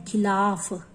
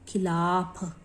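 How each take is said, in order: The two takes are said the same way.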